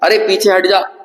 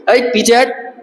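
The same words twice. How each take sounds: First: Said in the usual way. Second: Forceful call. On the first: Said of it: "ऐसा नहीं बोलेंगे". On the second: Shown as a demonstration. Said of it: "जोर से बोलेंगे".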